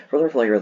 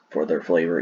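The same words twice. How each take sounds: First: "For their flavor" repeated higher and louder, leaning on "their"; emphatic restatement. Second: Said in the usual way. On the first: Shown as a demonstration. Soda reviewer insisting to viewers, stressing "their". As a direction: punch "their" harder the second time round. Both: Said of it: "I'm not gonna lie to you".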